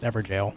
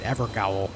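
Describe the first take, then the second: First: The second part sounds like the word jail. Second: The second part sounds like gowl, rhyming with owl. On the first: The speaker calls it right. "it's pronounced Everjail" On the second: The speaker calls it wrong. "I pronounced it Evergowl. Then I learned that it's not pronounced that way at all"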